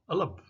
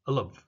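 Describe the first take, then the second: First: The words are reduced and linked into one sound. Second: The words are reduced and linked into one sound.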